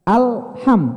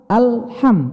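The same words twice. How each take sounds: The two takes are said the same way.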